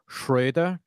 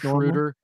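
First: The name is said with a German pronunciation. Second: The name is said with an English pronunciation. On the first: The speaker calls it right. "Like it's really Schroeder" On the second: The speaker calls it wrong. "that's Schroeder. Normal"

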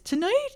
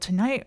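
First: It is said in a squeaky, high-pitched voice. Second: It is said in a deepened, lower voice. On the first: "He squeaks out in this high-pitched voice" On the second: "And then he deepens in voice"

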